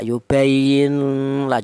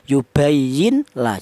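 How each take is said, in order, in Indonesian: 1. Bunyi n dikaburkan menjadi bunyi sengau. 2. Bunyi n diucapkan dengan jelas sebelum l. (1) "dibaca samar ikhfa ... juga jangan, salah" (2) "jangan seperti idhar"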